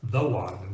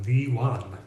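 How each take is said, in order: First: Said in the usual way. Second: "the" said "thee", rhyming with "she"; "thee" for "the", marking the only one; emphatic "the". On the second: Shown as a demonstration. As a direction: stress "the" with a long ee vowel. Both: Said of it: "we're emphasizing that she is the".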